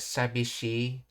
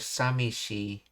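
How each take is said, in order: First: The middle consonant is a b sound. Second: The middle consonant is an m sound. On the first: This is the older, more formal form. "Sabishi is the older, more formal pronunciation" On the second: This is the common colloquial form. "the B sound shifted to M"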